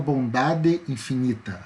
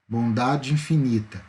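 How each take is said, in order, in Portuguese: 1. As duas palavras são pronunciadas separadamente. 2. A vogal final e a inicial se fundem. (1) "a gente não fala bondade infinita" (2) "a gente fala junto"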